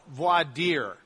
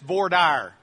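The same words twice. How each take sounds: First: It is pronounced the way it is outside Texas. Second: It is pronounced the way Texans say it. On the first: "in any place other than Texas, they tend to call it voir dire" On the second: "But here in Texas, that's just voir dire"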